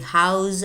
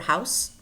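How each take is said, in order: First: The word ends in a buzzing z sound. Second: The word ends in a hissing s sound. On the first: It is used as a verb. "in verbs such as to house" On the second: It is used as a noun. "If they're used as nouns, then we use s, not z"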